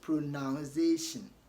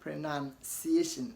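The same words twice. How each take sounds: First: The second syllable sounds like 'noun'. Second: The second syllable sounds like 'nun'. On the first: The speaker calls it wrong. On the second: The speaker calls it right. "None. ... It is ciation"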